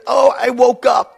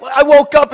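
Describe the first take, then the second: First: High, loud, drawn-out imitation of a kid; child's excuse. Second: Put-on loud, high, exasperated throwback of the kid's words; indignant echo. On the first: Child coming into parents' room, high mock excuse. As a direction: play a kid announcing it at night. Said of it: "they'll come in and they say". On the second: Dad woken by his child, indignant echo. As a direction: throw the excuse back, loudly and high. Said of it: "is not a good reason for you to come in".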